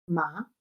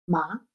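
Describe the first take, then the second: First: The pitch rises like a short question. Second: The same.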